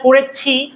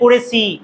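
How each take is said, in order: First: The middle consonant has a strong breath puff. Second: The middle consonant has no breath puff. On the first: The speaker calls it right. "এই জিনিসটা করেছি" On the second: The speaker calls it wrong. "হয়ে যায় করেছি"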